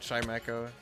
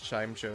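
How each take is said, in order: First: The name has three syllables, ending in 'echo'. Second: The name has two syllables, ending in 'show'. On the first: It is the generally accepted way. "I know they say it Chime Echo" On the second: It is more whimsical and funny. "I say Chime Show because it's funny"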